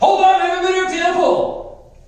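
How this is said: It is said dramatically, like Mickey Mouse.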